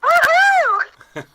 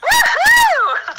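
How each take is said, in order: First: It is shouted with less energy. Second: It is shouted with more energy.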